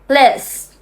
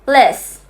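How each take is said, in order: First: It is fast, and the final t is dropped. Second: The same.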